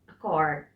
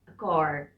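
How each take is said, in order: No difference in how they are said.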